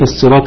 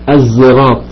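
First: The word begins with an emphatic s sound. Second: The word begins with a z sound. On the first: "بالصاد" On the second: "وممكن تنطقها بالزاي"

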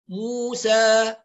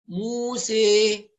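First: The final vowel is a fully open 'a'. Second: The final vowel is close to 'ee'. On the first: "اللي يفتح فتح محقق موسى" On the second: "الإمالة تكون أقرب إلى الياء"

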